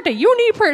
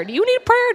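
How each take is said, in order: First: High loud call hitting "you"; eager call. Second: High loud call hitting "need"; eager call. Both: Retold or imitated. Employee calling out to shoppers.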